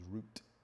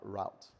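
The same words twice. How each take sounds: First: The word has a British pronunciation. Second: The word has an American pronunciation. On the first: The speaker calls it right. "the proper pronunciation is route" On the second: The speaker calls it wrong. "like the Americans would say"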